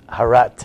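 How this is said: The word ends with a t sound.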